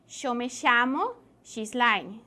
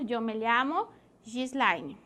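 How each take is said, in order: First: It is said with an Argentine accent. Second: It is said without an Argentine accent.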